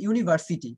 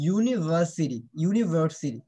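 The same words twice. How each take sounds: First: "ইউনিভার্সিটি" said as "yuni-var-siti"; common mispronunciation. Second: "ইউনিভার্সিটি" said as "yu-ni-va-si-ri"; correct pronunciation. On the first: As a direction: show the wrong "ইউনিভার্সিটি", with open "var" and clear t. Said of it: "এটা কিন্তু একদম রং". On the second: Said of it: "দেখছো, এখানে কিন্তু sound". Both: Shown as a demonstration.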